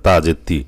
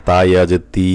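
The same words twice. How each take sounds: First: Final তি short, not held; stretch dropped. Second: Final তি held long; long stretch. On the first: Teacher shows students a lost letter, short clipped তি. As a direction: say তি with a quick short ee. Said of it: "যদি টান বাদ যায়". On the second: Teacher warns students about dropped letters, long-held তি. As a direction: draw out the ee of তি. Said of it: "লম্বা টান না দেন". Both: Shown as a demonstration.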